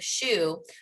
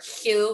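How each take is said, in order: First: The hissing sound is made clearly through the center. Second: The hissing sound escapes over the sides of the tongue. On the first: The speaker calls it right. "instead of" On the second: The speaker calls it wrong. "lateral fricative"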